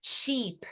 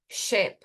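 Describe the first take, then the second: First: "Sheep" with a long ee sound. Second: "ship" with a short clipped i. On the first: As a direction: stretch the vowel in "Sheep". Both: Shown as a demonstration. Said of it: "um I longo".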